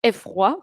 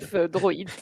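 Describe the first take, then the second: First: The second part is said like 'rwa', without d. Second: The second part is said like 'droid', with d. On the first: The speaker calls it wrong. "je l'ai mal euh, prononcé, mais ce n'est pas F, euh, F roi" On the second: The speaker calls it right. "mais c'est plutôt"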